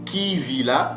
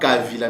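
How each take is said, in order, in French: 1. La première voyelle est un i. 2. La première voyelle est un a. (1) "mais c'est kivila ou kivira" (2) "ce n'est pas la bonne prononciation, ce n'est pas kavila"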